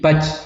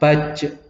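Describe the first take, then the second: First: The final j stops dead with no bounce. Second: The final j ends with a slight echoing bounce. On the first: The speaker calls it wrong. "Berhenti, ... Tidak boleh" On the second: The speaker calls it right. "harus ada baj, ada pantulannya"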